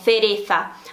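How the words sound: It is said the way people in Spain say it. "assim na Espanha"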